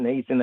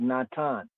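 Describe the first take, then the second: First: It is pronounced the English way. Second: It is pronounced the Hebrew way. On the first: The speaker calls it wrong. "if you coming from the English, Gentile" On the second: The speaker calls it right. "but really Natan, in the Hebrew"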